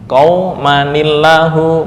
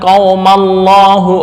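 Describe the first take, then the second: First: An n sound with an added i links. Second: The n sound is dropped before Allahu. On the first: The speaker calls it right. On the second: The speaker calls it wrong.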